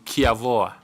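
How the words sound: The name begins with a k-like sound. This is the pronunciation used in the speaker's home region. "Where I come from, it will have been Kiavoa"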